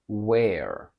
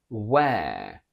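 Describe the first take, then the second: First: An American accent with a lowered vowel. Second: A British accent with a long air vowel. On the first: "From British to American" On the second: "From British to American"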